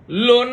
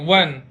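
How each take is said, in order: First: The word begins with an L sound. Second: The word begins with a W sound. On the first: The speaker calls it wrong. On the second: The speaker calls it right.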